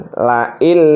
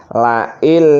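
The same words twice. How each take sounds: No difference in how they are said.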